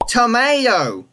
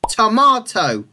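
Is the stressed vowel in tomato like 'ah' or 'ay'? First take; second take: ay; ah. First: The stressed vowel sounds like 'ay'. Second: The stressed vowel sounds like 'ah'. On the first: "But in Canada and the US, that word is tomato" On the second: "In most English varieties, it's tomato"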